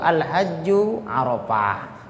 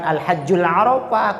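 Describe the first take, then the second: First: No 'l' sound links the two words. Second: An 'l' sound links the two words. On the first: The speaker calls it right. "yang bentuk al-hajju arafah" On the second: The speaker calls it wrong. "bukan al-hajjul arafah"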